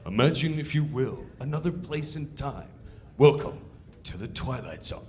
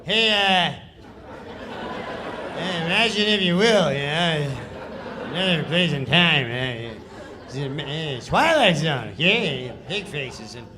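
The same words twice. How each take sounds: First: Solemn, measured host intro with a low final line; ominous TV host opening; Twilight Zone narrator. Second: Careless, offhand mumbled read with laughs; Norm's shrugging, half-hearted Twilight Zone read; Norm's lazy read. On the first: Shown as a demonstration. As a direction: intone it like Rod Serling. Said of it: "the sketch is like". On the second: Retold or imitated. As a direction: throw the lines away like you don't care. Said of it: "this is how he reads the sketch".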